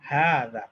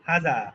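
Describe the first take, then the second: First: The first vowel is held long. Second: The first vowel is said short. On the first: The speaker calls it right. "উচ্চারণটা আসলে খাড়া জবরের" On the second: The speaker calls it wrong. "Not"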